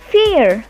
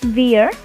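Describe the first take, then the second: First: The word begins with an F sound. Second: The word begins with a W-like sound. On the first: The speaker calls it right. "but vier" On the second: The speaker calls it wrong. "the pronunciation will not be wir"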